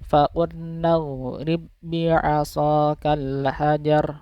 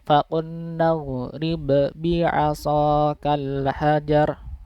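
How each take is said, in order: First: The silent b merges straight into the doubled b. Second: The silent b is released with an audible bounce. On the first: The speaker calls it right. "langsung masuk ke huruf yang kedua" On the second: The speaker calls it wrong. "jangan sampai diucapkannya gini. ... itu kan memantul ya yang huruf ba bersukunnya"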